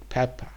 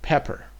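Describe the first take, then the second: First: It is said in a British accent. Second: It is said in an American accent. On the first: "Peppa is just the British way of saying pepper" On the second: "it should have been Pepper"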